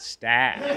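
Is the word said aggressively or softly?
softly. The word is said plainly and softly. The speaker calls it wrong.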